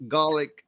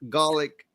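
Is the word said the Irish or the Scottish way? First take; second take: Scottish; Scottish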